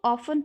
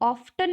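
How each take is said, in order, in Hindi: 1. यह शब्द बिना t ध्वनि के बोला जाता है। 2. यह शब्द स्पष्ट t ध्वनि के साथ बोला जाता है। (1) "इसको हम ऑफन पढ़ते हैं" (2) "ऑफ्टन नहीं पढ़ते हैं"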